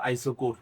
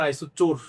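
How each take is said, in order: First: আইসো কোর, with কোর said as kor, a hard k; correct pronunciation. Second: আইসো চোর, with চোর said as chor; wrong pronunciation. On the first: Teacher answering a student's question, saying আইসো কোর with a hard k. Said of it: "উচ্চারণটা কি ভাইয়া?". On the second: Teacher to students, showing the wrong word আইসো চোর with a ch sound. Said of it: "চোর না, আইসো কোর". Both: Shown as a demonstration.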